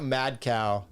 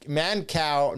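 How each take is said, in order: First: "mad cow" said slowly, with a clear d, as the rejected version; the wrong name quoted. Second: "man cow" said slowly, with an n, spelled out carefully; "man cow" as a slow deliberate correction; Mancow, corrected. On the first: Showing the stream the name he got wrong, "mad cow". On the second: Correcting his own slip to viewers, slowly stressing "man cow". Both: Shown as a demonstration. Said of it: "not mad cow".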